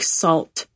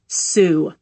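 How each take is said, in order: First: The name sounds like salt, with an L. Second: The name sounds like soo, with no L. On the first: The speaker calls it wrong. "don't be like tourists and pronounce it like salt" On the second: The speaker calls it right. "It's Sioux"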